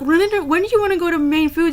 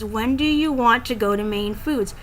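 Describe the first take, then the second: First: It is said fast and slurred together. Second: It is said slowly and clearly.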